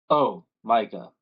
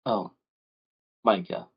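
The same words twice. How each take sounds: First: Deep voice. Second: Weary mother. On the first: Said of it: "you hear a deep voice". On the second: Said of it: "and says". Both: Acted.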